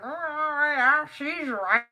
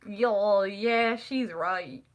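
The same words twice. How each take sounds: First: High, loud, drawn-out Southern drawl; uncle's Southern drawl. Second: Said in the usual way. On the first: Retold or imitated. Teasing niece imitates her uncle agreeing, exaggerated Southern drawl. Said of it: "He talks like that". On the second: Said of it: "and I'm like".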